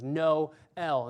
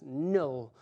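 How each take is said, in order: First: The vowels are split into two syllables. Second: The vowels merge into one syllable. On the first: The speaker calls it right. "the diphthong is split out so that we have two actual pronunciations" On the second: The speaker calls it wrong. "instead of just"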